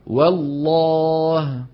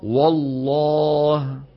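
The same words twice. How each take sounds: First: The w is thin and the l is heavy. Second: The w is heavy like the l. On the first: The speaker calls it right. "ننطق واو مرققة ثم لام مفخمة" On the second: The speaker calls it wrong. "هذا الخطأ"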